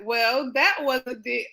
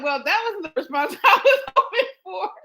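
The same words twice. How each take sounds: First: Said in the usual way. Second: Higher, louder doctor voice with laughter; imitating the doctor. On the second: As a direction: redo her line as a lightly voiced doctor. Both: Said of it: "uh, she said".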